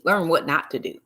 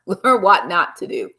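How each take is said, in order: First: Said in the usual way. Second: Laughing. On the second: Real, not acted. Repeats lesson laughing, slower.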